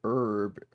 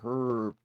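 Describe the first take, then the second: First: The word starts without an h sound. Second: The word starts with an audible h sound. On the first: "An herb" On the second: "that's a herb"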